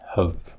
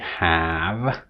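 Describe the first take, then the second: First: The vowel is reduced to a weak schwa. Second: The vowel is full, with the mouth open. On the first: "so you just say have" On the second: "which also requires some opening"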